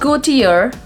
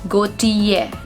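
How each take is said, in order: First: The word is said with an R sound. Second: The word is said without an R sound. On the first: The speaker calls it wrong. "It's not Gaultier. We are not going to pronounce the sound R over here" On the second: The speaker calls it right. "the correct pronunciation of this word is going to be Jean Paul Gaultier"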